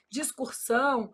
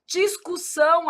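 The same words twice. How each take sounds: First: "Discursão" with an added R; popular mispronunciation. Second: "Discussão" with no R, dis-cu-SSÃO; correct pronunciation. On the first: Retold or imitated. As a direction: say "Discursão" as dis-cur-SÃO, softer. ("Discursão" errado, com R a mais) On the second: Shown as a demonstration. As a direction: say "Discussão" clearly, higher. ("Discussão" sem R, bem claro) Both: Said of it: "aí o povo vai e fala o quê".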